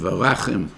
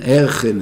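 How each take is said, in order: First: The word is said in full with every vowel. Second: The word is said fast with a vowel dropped. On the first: The speaker calls it right. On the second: The speaker calls it wrong.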